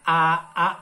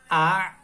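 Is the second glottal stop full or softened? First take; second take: full; softened. First: Both vowels start with a full glottal stop. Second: The second vowel's glottal stop is only half sounded. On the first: The speaker calls it wrong. "Jadi ora a a enggak" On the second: The speaker calls it right. "tapi a separuh"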